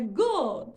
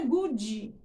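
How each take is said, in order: First: Good stressed and cut off at the d; right good. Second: Good with a vowel after the d, goodji; wrong good. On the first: Teacher giving the correct version of good. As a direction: say good firmly, ending on the d. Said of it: "Não é good". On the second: Teacher showing the mistaken ending. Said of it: "é good". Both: Shown as a demonstration.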